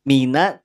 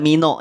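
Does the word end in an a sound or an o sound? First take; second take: a sound; o sound. First: The word ends in an a vowel. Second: The word ends in an o vowel. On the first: The speaker calls it right. "Mina tidak mino ya" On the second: The speaker calls it wrong. "Mina tidak mino ya"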